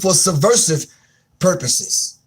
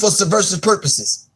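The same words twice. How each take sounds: First: It is spoken at a slow pace. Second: It is spoken at a fast pace.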